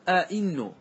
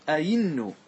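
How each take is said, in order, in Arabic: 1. الهمزة الثانية تُنطق كهمزة قطع. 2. الهمزة الثانية تُنطق كصوت ياء. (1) "بعض العرب يحقق الهمزتين" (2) "تقلبها إلى إلى ياء"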